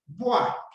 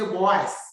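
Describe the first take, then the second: First: The final S is silent. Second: The final S is pronounced. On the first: The speaker calls it right. "And the S does not sound" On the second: The speaker calls it wrong. "Please, don't say bois"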